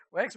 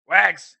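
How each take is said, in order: First: Said in the usual way. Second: Extra loud. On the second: Shown as a demonstration. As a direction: call the name out loud and sharp. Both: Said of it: "See how I said that with extra loudness?".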